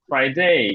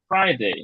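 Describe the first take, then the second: First: The stress is on the second syllable. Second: The stress is on the first syllable. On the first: The speaker calls it wrong. "যদি ডেতে stress থাকে তাহলে কেমন হতো?" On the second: The speaker calls it right. "স্ট্রেসটা হচ্ছে Friday আছে, এই কারণে হবে ফ্রাইডে।"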